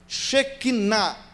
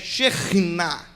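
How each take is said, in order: First: The middle consonant is a plain k sound. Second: The middle consonant is a throaty kh sound. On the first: The speaker calls it wrong. "vai indo falando errado" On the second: The speaker calls it right. "o certo da pronúncia é Shekhinah"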